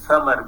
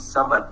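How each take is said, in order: First: The word begins with a th sound. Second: The word begins with an s sound. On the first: "th is replaced with s" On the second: "becomes samar"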